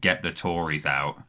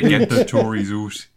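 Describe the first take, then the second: First: Out has a standard vowel, as in house. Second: Out is said 'oot', like a Newcastle speaker.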